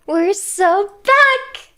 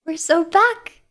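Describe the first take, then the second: First: Higher, louder, stretching back out slowly; excited drawn-out cheer. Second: Said in the usual way. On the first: Shown as a demonstration. Streamer celebrates her return to chat, slow, excited cheer. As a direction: sell the comeback like a hype cheer. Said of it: "first take plainer". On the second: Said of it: "repeats it bigger".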